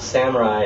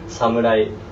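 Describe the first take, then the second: First: It is said with American English vowels and stress. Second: It is said with crisp, even Japanese syllables. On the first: The speaker calls it wrong. "it's actually not samurai" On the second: The speaker calls it right. "the real pronunciation of samurai"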